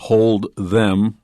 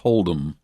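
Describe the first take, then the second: First: Both words are said fully, keeping the 'th'. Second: It is said quickly, dropping the 'th' sound.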